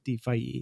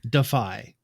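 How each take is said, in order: First: The name is not said like the word defy. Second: The name is said like the word defy. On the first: The speaker calls it right. "I'm going to try my best to say it correctly" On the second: The speaker calls it wrong. "I used to say defy, kind of like D E F Y, like defy the odds"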